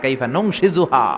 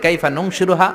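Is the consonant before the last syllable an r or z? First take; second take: z; r. First: The consonant before the last syllable is z. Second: The consonant before the last syllable is r. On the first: "আরেক জায়গায়" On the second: "আমরা পড়ি"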